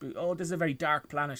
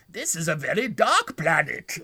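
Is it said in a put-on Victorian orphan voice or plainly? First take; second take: plainly; Victorian orphan. First: It is said in a plainer voice. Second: It is said in a Victorian orphan voice.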